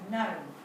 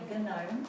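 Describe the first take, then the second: First: The word begins with an N sound. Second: The word begins with a hard G sound. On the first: The speaker calls it right. "you just say gnome. You don't sound the G" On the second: The speaker calls it wrong. "you don't say gnome"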